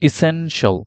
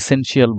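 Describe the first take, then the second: First: The ending is pronounced as 'shl'. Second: The ending is pronounced as 'shee-al'. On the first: The speaker calls it right. "Correct প্রোনাউন্সিয়েশনটা শিখতে চাই তাহলে সেটা হবে" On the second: The speaker calls it wrong. "আমরা এটাকে আসলে ইসেনশিয়াল বলি"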